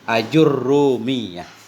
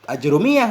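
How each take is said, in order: First: A vowel follows the j and the r is doubled. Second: No vowel follows the j and the r is single. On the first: This follows the reading given in some manuscripts. "dengan fathah hamdah... dhammah jim... dengan tasdid ra" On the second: This is the reading people commonly use. "fathah hamzahnya sukun jim aj dengan dhammah ra"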